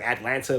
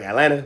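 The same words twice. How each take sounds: First: It is said in a non-local way. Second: It is said the local Atlanta way. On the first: This is how outsiders say it. The speaker calls it wrong. "we don't say like Atlanta" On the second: This is how people from Atlanta say it. The speaker calls it right. "we say like Atlanta"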